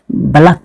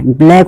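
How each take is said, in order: First: "बलक" as two syllables, ba-LAK; "बलक" ending in -lak, not -laik; taught pronunciation "बलक". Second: "ब्लैक" as one syllable, BLAIK; wrong pronunciation "ब्लैक". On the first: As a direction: say "बलक" with a vowel after the b. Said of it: "इसको बलक पढ़ना है". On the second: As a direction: say "ब्लैक" with bl together and an "ai" vowel. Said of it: "ब्लैक उच्चारण गलत है". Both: Shown as a demonstration.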